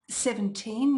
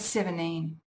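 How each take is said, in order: First: A clear T follows the N. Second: No T or D follows the N. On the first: "with a T" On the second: "if I drop them both"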